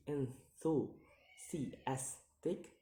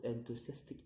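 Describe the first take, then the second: First: "enthusiastic" drawn out in separate syllables; very slow, split syllables on "enthusiastic". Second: Said in the usual way. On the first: Shown as a demonstration. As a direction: sound out "enthusiastic" piece by piece. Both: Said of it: "count the word syllable backwards".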